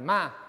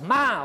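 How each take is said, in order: First: It is said in a neutral tone. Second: It is said in an angry tone.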